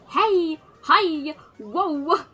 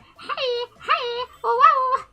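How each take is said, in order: First: It is said in a plain, normal voice. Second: It is said in a silly, funny voice.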